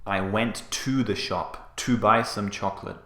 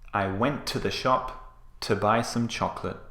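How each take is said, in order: First: Each 'to' is said in full, like 'two'. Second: Each 'to' is reduced to a short weak 't'. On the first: The speaker calls it wrong. "We don't say, ... This sounds very unnatural" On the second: The speaker calls it right. "Can you hear that?"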